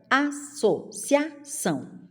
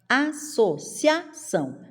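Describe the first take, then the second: Both takes have the same delivery.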